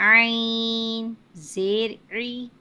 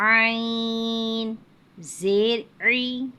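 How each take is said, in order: No difference in how they are said.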